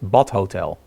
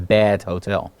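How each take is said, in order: First: The word 'bad' has a Dutch pronunciation. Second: The word 'bad' has an English pronunciation. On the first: The hotel is a bath hotel. "We actually pronounce it as Bad Hotel" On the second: The hotel is a poor hotel. "But if you know English"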